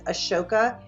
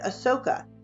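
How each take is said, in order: First: The middle consonant is a 'sh' sound. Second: The middle consonant is an 's' sound. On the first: "I'm pronouncing it with an A S H" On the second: "pronounce it without an H"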